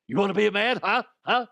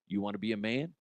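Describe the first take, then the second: First: Loud, high, hammed-up bark; mock tough-guy challenge. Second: Said in the usual way. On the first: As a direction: get in their face, mock drill-coach yelling. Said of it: "No, he didn't say that". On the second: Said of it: "He was very kind about it".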